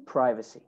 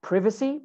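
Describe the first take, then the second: First: American "privacy", first syllable as "pry"; American accent. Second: British "privacy", first syllable as short "priv"; British accent. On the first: Teacher models American "privacy" for students, long first vowel. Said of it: "In American English". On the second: Teacher models British "privacy" for students, short I. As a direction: say "privacy" with the I of "give". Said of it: "In British English". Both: Shown as a demonstration.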